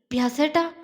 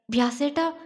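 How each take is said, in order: First: Mildly tremulous, rising at the end; trembling call. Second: Mildly stunned, rising at the end; disbelieving call. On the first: Girl just kissed calls her beloved, trembling. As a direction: call his name with a touch of trembling. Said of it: "അവൾ വിറയലോടെ വിളിച്ചു". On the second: Girl suddenly pulled close calls him, disbelieving. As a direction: call out his name in understated disbelief. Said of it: "വിശ്വസിക്കാൻ കഴിയാതെ മീനു അവനെ വിളിച്ചു". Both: A narrator's reading.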